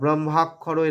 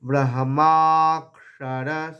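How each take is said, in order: First: The first vowel is said short. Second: The first vowel is held long. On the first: The speaker calls it wrong. "এরকম বলবো না" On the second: The speaker calls it right. "এই ব্রাহ্মাকে দীর্ঘ করার পরে"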